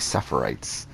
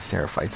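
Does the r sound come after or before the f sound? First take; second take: after; before. First: The r sound comes after the f sound. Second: The r sound comes before the f sound. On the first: The speaker calls it wrong. "but I kept on saying Sephirites" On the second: The speaker calls it right. "I knew it was Seraphites"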